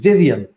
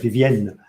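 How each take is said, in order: First: The name is pronounced the English way. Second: The name is pronounced the French way. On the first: "or maybe it's" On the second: "I say it in French"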